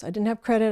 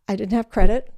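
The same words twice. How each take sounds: First: Said in the usual way. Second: Credit stressed, rising. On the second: Real, not acted. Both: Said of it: "This is how stupid I was".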